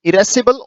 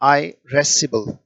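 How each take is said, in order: First: It is said the British way, starting 'ih'. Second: It is said the American way, starting 'eye'. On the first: "अधिकतर अंग्रेज जो है वो इसे इरेसिबल पढ़ते हैं" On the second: "जो अमेरिकन पढ़ते हैं वो आईरेसिबल पढ़ते हैं"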